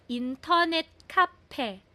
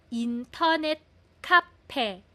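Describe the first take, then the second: No difference in how they are said.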